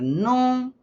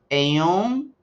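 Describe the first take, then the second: First: The words merge into one contracted syllable. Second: Two separate words are said, em and um. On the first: "va a ser nun" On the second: "va a ser"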